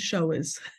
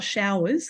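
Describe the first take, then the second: First: The vowel sounds like 'oh' in 'goers'. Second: The vowel sounds like 'ow' in 'flowers'. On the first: People who show the way. The speaker calls it right. "This is showers. Just to get the pronunciation right" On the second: A rain shower or bathing shower. The speaker calls it wrong. "this is not showers"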